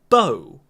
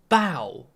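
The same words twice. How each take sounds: First: The vowel sounds like 'oh'. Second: The vowel sounds like 'ow'. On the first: "the one on the left. Bow, bow, oh" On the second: "On the right, bow, ow"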